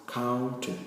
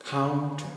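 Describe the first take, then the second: The two takes are said the same way.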